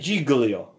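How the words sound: The name is said with an English-speaker pronunciation. This is how English speakers mispronounce it. The speaker calls it wrong. "But you say Giglio. Is this possible?"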